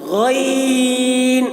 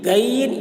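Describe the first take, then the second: First: The first sound is deep and thick, from the throat. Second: The first sound is light, not from the throat. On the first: The speaker calls it right. "ये सही है" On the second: The speaker calls it wrong. "ये गलत है"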